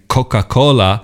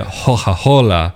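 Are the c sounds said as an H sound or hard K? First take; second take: hard K; H sound. First: The c sounds are said as hard K. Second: The c sounds are said as H. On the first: "instead of saying Coca-Cola" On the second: "like that hard K becomes a H"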